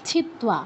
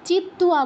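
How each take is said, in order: First: The first consonant is aspirated, with a puff of breath. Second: The first consonant is plain, without a puff of breath. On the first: The speaker calls it right. "ছিত্ত্বা, চিত্ত্বা বলবো না" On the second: The speaker calls it wrong. "চিত্ত্বা বলবো না, এখানে একটা common ভুল"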